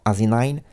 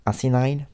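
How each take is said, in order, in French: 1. Le nom est prononcé avec des sons anglais. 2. Le nom est prononcé avec des sons anglais.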